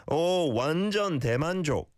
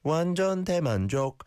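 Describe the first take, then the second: First: Long "Oh" flowing into a high "완전 대만족"; natural intonation. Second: "완전 대만족" high, each word with its own tune; slightly unnatural intonation. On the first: Shown as a demonstration. Teacher showing how he'd say it, natural intonation on "완전 대만족". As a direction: join "Oh, 완전 대만족" in one natural tune. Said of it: "how I would say it". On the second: Retold or imitated. Teacher imitating a learner, unnatural intonation on "완전 대만족". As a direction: echo "완전 대만족" with a learner's stiff, raised tune. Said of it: "The intonation is a little unnatural".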